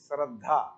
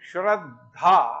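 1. शब्द की शुरुआत दन्त्य 's' ध्वनि से होती है। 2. शब्द की शुरुआत तालव्य 'sh' ध्वनि से होती है।

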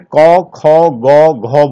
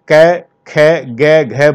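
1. हर अक्षर 'au' जैसे स्वर पर खत्म होता है। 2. हर अक्षर 'ai' जैसे स्वर पर खत्म होता है। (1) "पूर्वी उत्तर प्रदेश में इसे कौ खौ गौ घौ बोलते हैं, वो भी गलत है" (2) "पश्चिमी उत्तर प्रदेश में इसे कै खे गे घे बोलते हैं, गलत है"

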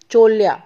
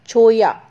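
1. बीच का व्यंजन L ध्वनि है। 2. बीच का व्यंजन Y ध्वनि है। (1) "कॉमनली हम क्या प्रोनाउंस करते हैं" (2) "स्पेनिश में हम छोया प्रोनाउंस करते हैं"

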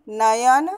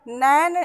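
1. यह शब्द तीन अक्षरों में बोला जाता है। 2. यह शब्द दो अक्षरों में बोला जाता है। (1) "नयन शुद्ध शब्द है" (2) "नैन अशुद्ध शब्द है"

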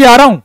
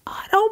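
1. यह ज़ोर से, पूरी ऊर्जा के साथ बोला गया है। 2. यह धीरे से, कम ऊर्जा के साथ बोला गया है। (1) "खुल के बोला करो" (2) "अरे काम नहीं चलेगा इससे, जोर से बोलना पड़ेगा"

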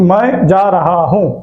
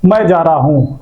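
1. ஒவ்வொரு சொல்லும் முழுமையாக, தனித்தனியாக சொல்லப்படுகிறது. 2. சொற்கள் வேகமாக ஒன்றாக சேர்ந்து, சுருக்கமாக சொல்லப்படுகின்றன. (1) "ஆக்சுவலி அது வந்து என்னன்னா" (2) "நீங்க பேச பேச அந்த ஃபாஸ்ட் வர வர வந்துட்டு ஜார் ஆகும்"

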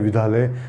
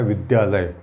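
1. d और y की ध्वनियाँ आपस में मिलकर धुंधली हो जाती हैं। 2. d और y की ध्वनियाँ साफ़ निकलती हैं। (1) "बहुत सारे लोग विद्यालय बोल देते हैं ... वो उच्चारण सही नहीं होता है" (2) "ये खुल कर आने पर विद्यालय, इसका उच्चारण तभी से आ पाता है"

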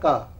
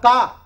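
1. इसे बहुत कम ज़ोर के साथ, धीरे से कहा जाता है। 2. इसे तेज़ और भरपूर ज़ोर के साथ कहा जाता है। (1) "साधारण तरीके से अगर हम इसको कहें" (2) "तेजी से"

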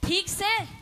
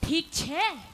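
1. आखिरी शब्द 's' ध्वनि से शुरू होता है। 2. आखिरी शब्द 'chh' ध्वनि से शुरू होता है। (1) "हम कहेंगे ठीक से" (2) "वे कहेंगे ठीक छह"

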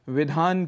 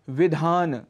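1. शब्द का अंत व्यंजन 'न' से होता है। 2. शब्द का अंत 'न' के बाद एक छोटे स्वर से होता है। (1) "अंतिम अ को हम यहाँ छोड़ जाते हैं" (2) "जबकि यहाँ पर व ई ध आ न और अ है अंत में"

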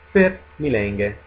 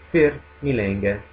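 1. La prima parola inizia con un suono f. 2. La prima parola inizia con un suono f.

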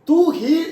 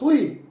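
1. ഇത് രണ്ട് വേറിട്ട, പൂർണ്ണമായ അക്ഷരങ്ങളായാണ് പറയുന്നത്. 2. ഇത് ഒരു ചെറിയ, ലഘുവായ അക്ഷരമായി ഒന്നിച്ചു ചേർന്നാണ് പറയുന്നത്. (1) "തൂ ഹി എന്ന് പറഞ്ഞു കഴിഞ്ഞാൽ" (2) "തുയ് എന്ന് പറഞ്ഞാൽ നീ തന്നെ"

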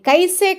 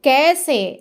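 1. మొదటి అచ్చు 'ai' లా జారుతుంది. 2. మొదటి అచ్చు సాదా 'e'. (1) "కైసే అనకూడదు"

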